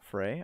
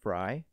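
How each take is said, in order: First: The vowel sounds like the one in 'day'. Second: The vowel sounds like the one in 'eye'. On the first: The speaker calls it wrong. "you don't say like Frey" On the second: The speaker calls it right. "it's pronounced Fry"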